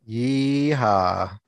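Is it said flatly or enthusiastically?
flatly. It is said flatly, without enthusiasm.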